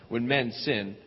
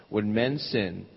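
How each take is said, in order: The two takes are said the same way.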